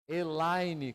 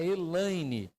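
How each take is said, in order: First: The A is open, Amazonas style. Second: The A is closed, southern style.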